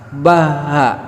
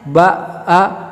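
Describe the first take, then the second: First: Breath flows audibly through the middle consonant. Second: Breath is stopped briefly at the middle consonant. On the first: "Terus kita kasih nafas" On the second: "tahan nafasnya"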